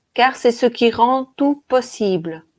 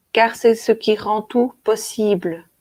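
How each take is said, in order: Both takes have the same delivery.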